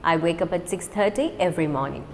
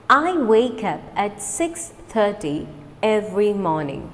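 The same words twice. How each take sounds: First: Quick, run together; fast. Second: Slow, clear model sentence; slow repeat. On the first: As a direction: rattle it off at natural speed. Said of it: "Now let's do it fast". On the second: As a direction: say it slowly for learners to copy. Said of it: "Repeat after me slowly". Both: Shown as a demonstration.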